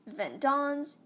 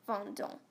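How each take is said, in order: First: The final S is pronounced aloud. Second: The final S is not pronounced. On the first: The speaker calls it wrong. "you don't say vendons" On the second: The speaker calls it right. "the S is silent"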